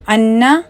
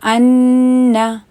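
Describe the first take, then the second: First: The nasal n is said quickly without lengthening. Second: The nasal n is held for two counts. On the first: The speaker calls it wrong. "बिल्कुल सीधा सीधा पढ़ जाते हैं" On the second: The speaker calls it right. "जब आप वो टू counts उसको दें"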